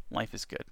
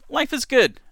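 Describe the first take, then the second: First: Whispering. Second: Loud. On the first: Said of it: "Life is good (loud take)". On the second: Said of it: "life is good (whispered repeat)". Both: Pretend.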